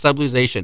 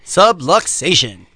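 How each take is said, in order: First: "subluxation" run together with a z sound in the middle; unsure pronunciation. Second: "Subluxation" slowly, with a crisp k-s: "sub-luk-SAY-shun"; correct pronunciation. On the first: Real, not acted. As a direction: say "subluxation" softened to "sub-loo-ZAY-shun". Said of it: "I may not pronounce that right". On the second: Shown as a demonstration. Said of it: "there is the correct pronunciation".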